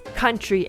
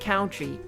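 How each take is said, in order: First: The first syllable does not sound like 'count'. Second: The first syllable sounds like 'count'. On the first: The speaker calls it right. "it's country" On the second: The speaker calls it wrong. "not country ... converting it into count"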